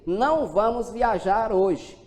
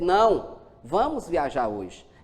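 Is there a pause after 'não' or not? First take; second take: no pause; pause. First: It is said without a pause after não. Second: There is a pause right after não.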